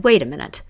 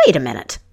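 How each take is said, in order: First: King hushing the court. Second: Indignant queen mother. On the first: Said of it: "But the king hushed them all". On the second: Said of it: "And she was outraged". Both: A narrator's reading.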